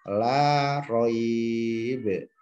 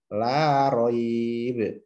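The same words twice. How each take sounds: First: The vowel is held moderately, about four counts. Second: The vowel is held briefly, about two counts. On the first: "dua alif" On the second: "satu alif"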